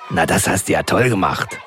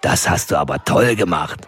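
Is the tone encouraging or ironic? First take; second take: ironic; encouraging. First: It sounds ironic, meaning the opposite. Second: It sounds sincerely encouraging and warm.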